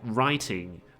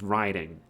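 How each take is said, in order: First: The middle consonant is a clear T sound. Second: The middle consonant sounds like a soft D. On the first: The speaker calls it right. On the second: The speaker calls it wrong.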